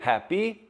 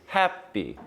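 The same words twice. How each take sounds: First: The stress is on the second syllable. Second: The stress is on the first syllable. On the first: It is a question. "if it were a question ... might be stressed differently" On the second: It is the normal statement form. "normally the word happy is happy, so trochee"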